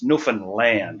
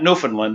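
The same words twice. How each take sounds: First: The name is said the way locals say it. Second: The name is said the common outsider way. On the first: The speaker calls it right. "that's how she pronounces it" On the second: The speaker calls it wrong. "It's not Newfoundland"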